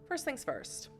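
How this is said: It is said in a laid-back Californian stoner voice.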